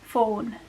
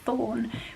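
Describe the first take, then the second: First: The word begins with an F sound. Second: The word begins with a TH sound. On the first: "will be pronounced as for, fawn, like that" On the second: "T H's"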